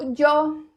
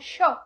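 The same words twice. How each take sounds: First: The Y is strong and sharply marked. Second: The Y sounds like a hushing 'sh' sound. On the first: This is typical of Spain. "esse yo bem marcado, ele é muito característico da Espanha" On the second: This is how Argentines say it. "na Argentina já vai falar como yo"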